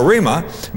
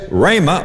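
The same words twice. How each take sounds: First: "rhema" said as REE-muh; first syllable as REE. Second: "rhema" said as RAY-muh; first syllable as RAY. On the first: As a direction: give "rhema" a long E, as in reed. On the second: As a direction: give "rhema" a long A, as in ray. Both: Shown as a demonstration. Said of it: "However you choose to pronounce it".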